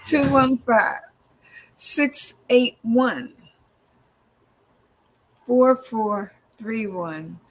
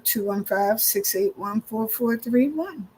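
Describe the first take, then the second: First: Each digit is said slowly and clearly apart. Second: The digits are run together at normal speed.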